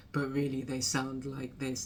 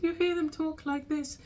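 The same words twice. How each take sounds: First: Relaxed everyday pitch, nothing put on; natural low voice. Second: Much higher than natural, held up high; put-on high voice. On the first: Creator revealing how those artists really sound, natural lower voice. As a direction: drop to your real, lower register. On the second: Creator showing how some artists talk, very high put-on voice. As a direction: mimic artists who talk in an artificially high voice. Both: Shown as a demonstration.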